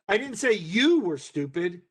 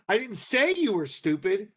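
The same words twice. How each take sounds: First: The stress falls on the word you. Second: The stress falls on the word say. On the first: It was said about a different person. "I said your brother was" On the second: It was expressed some other way, not spoken. "but I did write it on the bulletin board"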